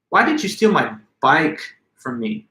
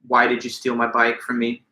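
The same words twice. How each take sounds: First: The word bike is stressed above the others. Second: It is said flat, with no word stressed. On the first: Of all things to steal, why that precious bike. "Now I've placed the emphasis on the word bike" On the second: A plain question about the theft. "If I just say these words to you in a flat monotone"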